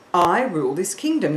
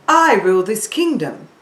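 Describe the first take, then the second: First: Said in the usual way. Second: A touch louder, regal queen; queen voice from the heart. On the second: Shown as a demonstration. Teacher shows a queen's voice to pupils, lightly regal. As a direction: proclaim it like a queen, from the chest. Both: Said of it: "she would say it from around here".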